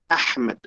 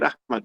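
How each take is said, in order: First: The h is deep and throaty. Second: The h is a light, plain breath. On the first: The speaker calls it right. "pero es Ahmad" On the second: The speaker calls it wrong. "Yo acepto de ustedes decir Ahmad"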